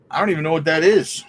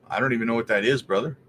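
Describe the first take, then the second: First: Louder and faster, exasperated; louder, quicker, baffled; emphatic repeat. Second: Said in the usual way. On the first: Real, not acted. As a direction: blurt it out again with more force. Repeats confused reaction.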